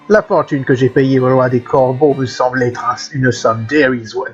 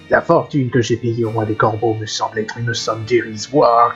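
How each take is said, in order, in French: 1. Elle est prononcée avec un accent anglais. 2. Elle est prononcée avec un accent français simple.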